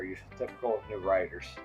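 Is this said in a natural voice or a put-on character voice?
natural. It is read in a natural speaking voice.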